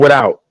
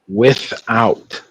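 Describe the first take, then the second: First: The word is clipped, with sounds dropped. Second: The word is said in full, every sound clear. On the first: The speaker calls it wrong. "Not without" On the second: The speaker calls it right. "Pronounce the whole word"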